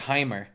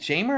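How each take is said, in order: First: The name begins with an H sound. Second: The name begins with a J sound. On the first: "or is it Heimer?" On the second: "is it Jamer"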